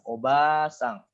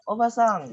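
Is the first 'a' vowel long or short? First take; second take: long; short. First: The vowel after 'b' is held long. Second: The vowel after 'b' is kept short. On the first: "Maka dia bacanya panjang" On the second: "kalau yang pendek obasang itu bibi"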